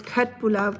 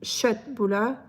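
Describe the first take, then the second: First: Köttbullar with a hard K; German-style köttbullar, K fully sounded; German pronunciation. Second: Köttbullar starting with "sh", no K; Swedish pronunciation. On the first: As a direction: say köttbullar as Germans do, starting "kutt". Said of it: "In Germany, everyone says". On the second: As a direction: say köttbullar as "shett-bullar". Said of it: "even though it starts with a K, it's called". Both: Shown as a demonstration.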